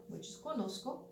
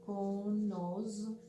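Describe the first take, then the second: First: Said in the usual way. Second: Conozco stretched out very slowly; slow model pronunciation. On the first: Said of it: "the first form". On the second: Shown as a demonstration. Teacher slowly models conozco for the class. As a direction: say conozco slowly for learners to repeat.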